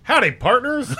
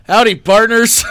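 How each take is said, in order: First: High, hearty cowboy howdy; cowboy greeting. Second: Loud, hearty howdy; cowboy greeting. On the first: Pretend. Buddy greets a room of women, hearty cowboy howdy. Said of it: "that's my favorite right there". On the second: Retold or imitated. Host suggests greeting a bar, hearty cowboy howdy. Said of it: "when you walk into a bar".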